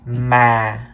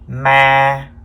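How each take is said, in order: First: The pitch starts low and falls lower. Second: The pitch stays level at a middle height. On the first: "The second tone is the low falling tone" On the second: "This is the mid-level tone, or sometimes we call it the flat tone"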